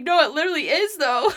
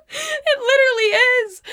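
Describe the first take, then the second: First: Laughing while agreeing, a bit raised; laughing through it. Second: Much higher and louder, squealed through laughter; high laughing squeal. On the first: Agreeing with the stranger about the pizza, laughing. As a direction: let a laugh run through the words. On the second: Repeating it to listeners, squealing with laughter. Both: Real, not acted.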